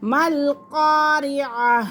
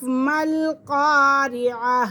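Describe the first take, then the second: First: قاریہ with a ya glide replacing the ع; wrong ya sound. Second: قاری آ with a clean ع-glottal break, no ya sound; correct reading. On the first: Teacher mimics the students' wrong ya pronunciation. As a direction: slur قاری آ into قاریہ as the common mistake. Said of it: "یہ ہمارا طریقہ بالکل غلط ہے". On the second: Teacher gives children the correct reading, careful and slow. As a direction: say مل قاری آ keeping the ع distinct. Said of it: "اس کو قاریہ نہیں پڑھنا". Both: Shown as a demonstration.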